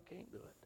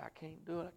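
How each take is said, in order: First: Barely a whisper, pleading; whispered plea. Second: Said in the usual way. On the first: Retold or imitated. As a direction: let it fade to a whispered no. Retold prayer refusing God.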